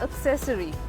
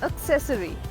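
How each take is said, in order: First: The stress falls late in the word. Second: The stress falls late in the word.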